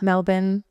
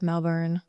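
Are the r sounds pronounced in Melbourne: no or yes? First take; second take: no; yes. First: The r sounds are left out. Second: The r sounds are pronounced. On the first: The speaker calls it right. "you don't say the R's" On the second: The speaker calls it wrong. "instead of"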